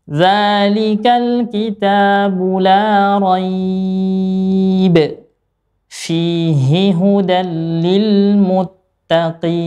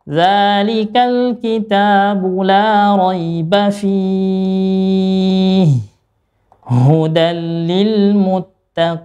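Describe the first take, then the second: First: There is a pause after 'la rayb'. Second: There is a pause after 'fihi'.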